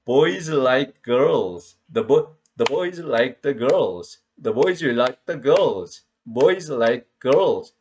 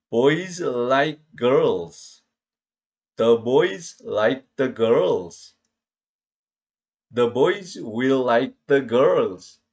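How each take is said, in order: First: Put-on "boys" and "girls" stressed, the small words squeezed between them; stress-timed English. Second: Put-on "Boys like girls" read word by word, each syllable equal and slow. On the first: Teacher now reading English with proper stress-timed rhythm. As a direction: keep the beat on the stressed words. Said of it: "같은 시간이 똑같아요". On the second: Teacher imitating Korean-style English reading, choppy and slow. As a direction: plod through each syllable like a beginner. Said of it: "음절 시간 언어의 습성대로 읽은 거예요". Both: Shown as a demonstration.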